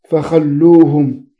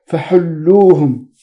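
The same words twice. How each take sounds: First: "فخلوهم" with a rasped kh followed by a short a; خاء معجمة مفتوحة. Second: "فحلوهم" with a smooth throat h followed by a short u; حاء مهملة مضمومة. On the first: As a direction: say "فخلوهم" slowly as fa-khal-loo-hum. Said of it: "بفتح الخاء المعجمة". («فخلوهم» بخاء منقوطة مفتوحة ولام مشددة) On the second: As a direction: say "فحلوهم" slowly as fa-hul-loo-hum. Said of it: "بالحاء المهملة". («فحلوهم» بحاء غير منقوطة مضمومة ولام مشددة) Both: Shown as a demonstration.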